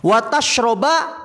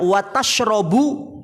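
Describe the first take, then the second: First: The verb ends with an a vowel. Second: The verb ends with an u vowel. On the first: Do not eat fish and drink milk together. "Wa tashroba beda maknanya" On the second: Do not eat fish, but drink milk. "kalau dibaca wa tashrabu beda maknanya"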